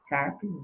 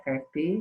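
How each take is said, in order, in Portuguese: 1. A tônica está na primeira sílaba. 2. A tônica está na última sílaba. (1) "elas são todas paroxítonas" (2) "não é carpe"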